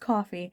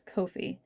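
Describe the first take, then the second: First: The first syllable sounds like cough. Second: The first syllable rhymes with low. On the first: The speaker calls it wrong. "it's not pronounced coffee" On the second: The speaker calls it right. "It's Ko-fi. Like low-fi"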